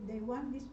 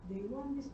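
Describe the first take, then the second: No difference in how they are said.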